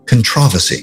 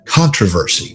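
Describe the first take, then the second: First: It is said in a British accent. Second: It is said in the speaker's American accent.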